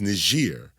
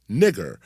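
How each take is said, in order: First: The G is pronounced soft, as in gentle. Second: The G is pronounced hard, as in go. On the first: This is a personal name or a country name. "The only time N I G E R is pronounced as Niger" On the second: "The Latin G was always pronounced hard"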